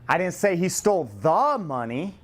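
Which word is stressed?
the. The stress is on the word the.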